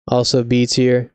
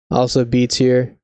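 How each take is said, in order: Both takes have the same delivery.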